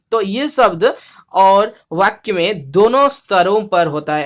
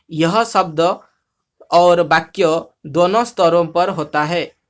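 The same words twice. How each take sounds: First: Said in the usual way. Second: Odia diction with open o endings; Odia-accented Hindi. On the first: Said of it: "Hindi में सुनेंगे तो अच्छा". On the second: Shown as a demonstration. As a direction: read the Hindi with rounded Odia vowels, word by word. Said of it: "ऐसा ओडिया में बोलते हैं".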